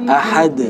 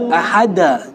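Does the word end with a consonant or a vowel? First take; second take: consonant; vowel. First: The word ends on the consonant 'd'. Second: The word ends with an added 'a' vowel. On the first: The speaker calls it right. "Jadi ahad" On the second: The speaker calls it wrong. "nggak boleh jangan ke fathah juga"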